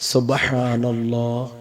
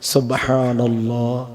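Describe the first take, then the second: No difference in how they are said.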